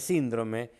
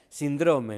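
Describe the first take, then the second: First: The stress falls on the first syllable. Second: The stress falls on the second syllable. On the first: The speaker calls it right. "en lugar de síndrome" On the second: The speaker calls it wrong. "que un médico que diga síndrome"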